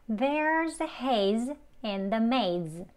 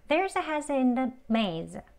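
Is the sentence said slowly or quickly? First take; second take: slowly; quickly. First: It is said slowly, each word kept separate. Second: It is said quickly, haze linked into in. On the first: "책 발음으로 먼저 천천히 연습해 볼게요" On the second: "Hazen 이렇게 연음됩니다"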